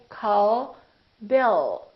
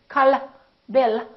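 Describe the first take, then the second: First: The L is held with the tongue staying up. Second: The L is released with the tongue dropping. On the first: The speaker calls it right. "We say call Bill" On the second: The speaker calls it wrong. "We don't say call me"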